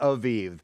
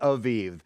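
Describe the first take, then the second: First: The middle consonant is a v sound. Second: The same.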